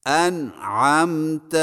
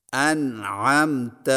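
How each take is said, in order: First: انعمت with the ع fully held and closed before م; firm sukun. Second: انعمت said as anamt, the ع swallowed; slurred sukun. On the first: Teacher modelling the held sukun on ع in انعمت. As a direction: set the ع in انعمت solidly, no movement. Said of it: "سکون کو خوب جماؤ سے ادا کریں". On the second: Teacher showing how انعمت comes out when ع is skipped. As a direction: let انعمت slip into anamt with no ع. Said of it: "باقی حروف کو ہلا کر پڑھنے سے بچیں". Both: Shown as a demonstration.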